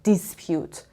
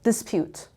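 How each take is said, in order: No difference in how they are said.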